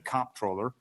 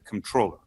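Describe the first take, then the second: First: The stress is on the first syllable. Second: The stress is on the second syllable. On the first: "I hit it hard on the on the first syllable" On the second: "some people say controller"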